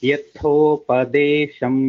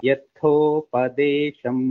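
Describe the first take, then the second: No difference in how they are said.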